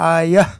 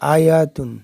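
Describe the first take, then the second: First: The ending is pronounced as a soft h sound. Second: The ending is pronounced as t with a vowel. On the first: The reader stops on this word. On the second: The word is joined to the next word.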